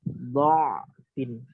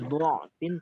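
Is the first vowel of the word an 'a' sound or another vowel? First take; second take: a; another vowel. First: The first vowel is an 'a' sound. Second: The first vowel is not an 'a' sound. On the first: This is the preferred reading. "tapi kita baca dha'fin" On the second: This is the reading not used here. "bukan dha'fin"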